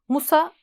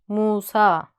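First: Both vowels are said short. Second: Both vowels are said long. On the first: The speaker calls it wrong. "Musa yanlış" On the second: The speaker calls it right. "Musa doğrusu"

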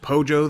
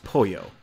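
First: The middle consonant is a hard English j. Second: The middle consonant is a soft y sound. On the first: The speaker calls it wrong. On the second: The speaker calls it right.

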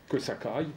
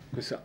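First: A k sound links ça to aille. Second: No k sound links ça to aille. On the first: This is the regional way of saying it. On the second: This is the standard way of saying it.

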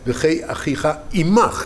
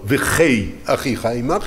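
First: The emphasis falls on the word אימך. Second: The emphasis falls on the word אחיך. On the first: The other lives only alongside one's own life, which comes first. The speaker calls it right. "אלא" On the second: The other person's life is what must be secured. The speaker calls it wrong. "לא"

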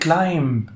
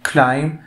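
First: The final b sound is pronounced. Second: The final b sound is not pronounced. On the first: The speaker calls it wrong. "وعادش يقول climb، لا wrong" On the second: The speaker calls it right. "حرف B silent"

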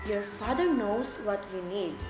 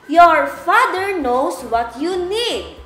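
First: It is spoken at a very low volume. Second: It is spoken at a very loud volume. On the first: "a very low voice" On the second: "we're going to use a very loud voice"

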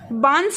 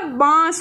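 First: The vowel is followed by a full n sound. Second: The vowel itself is nasalized, without a full n. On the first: The speaker calls it wrong. "बांस नहीं होता" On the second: The speaker calls it right. "इसमें क्या लगेगा अनुनासिक लगेगा"

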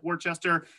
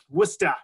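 First: Every written letter is sounded, as spelled. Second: Middle letters are dropped and the final r too. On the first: The speaker calls it wrong. "You can see here from the spelling, it does look like Worcester" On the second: The speaker calls it right. "you should also make sure you drop the R at the end"

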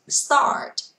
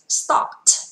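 First: It is said with an American accent. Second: It is said with a British accent.

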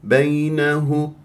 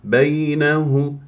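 No difference in how they are said.

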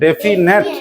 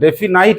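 First: The last syllable sounds like 'net'. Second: The last syllable sounds like 'night'. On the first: The speaker calls it right. "কি উচ্চারণ করবে?" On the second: The speaker calls it wrong. "ডেফিনাইট নয়"

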